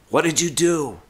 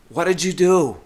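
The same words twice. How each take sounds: First: It sounds like near yelling, loud and upset. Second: The same.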